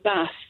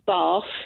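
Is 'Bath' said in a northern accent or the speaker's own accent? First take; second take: northern; own accent. First: It is said in a northern English accent. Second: It is said in the speaker's own accent.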